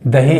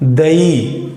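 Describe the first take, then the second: First: The h sound in the middle is pronounced. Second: The h sound in the middle is dropped. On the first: "दही है" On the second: "इसमें ह का लोप हुआ"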